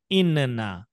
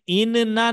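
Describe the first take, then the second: First: इन्ना with the nun pressed and held; doubled nun. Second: इन्ना with a light single nun; wrong single nun. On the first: Teacher to children, showing the correct doubled reading. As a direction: hold the nun in इन्ना firmly. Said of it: "दोनों में कुछ फर्क". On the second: Teacher to children, showing the reading to avoid. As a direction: say इन्ना without holding the nun. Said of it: "अब हमें इन्ना नहीं बोलना है". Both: Shown as a demonstration.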